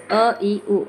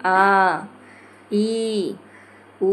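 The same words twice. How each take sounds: First: अ, ई, उ each said briefly; short vowels. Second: आ, ई, उ each held long; long vowels. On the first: Teacher showing short vowel length, अ ई उ kept brief. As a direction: cut अ, ई, उ short, one by one. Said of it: "समय की मात्रा कम है, जैसे". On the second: Teacher showing long vowel length, आ ई उ drawn out. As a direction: stretch आ, ई, उ out, pausing between them. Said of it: "अपेक्षाकृत अधिक है, जैसे". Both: Shown as a demonstration.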